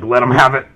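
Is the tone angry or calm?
angry. It sounds angry and vengeful.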